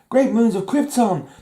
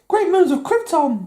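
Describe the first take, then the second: First: It is said in a deep, manly voice. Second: It is said in a high, squeaky voice.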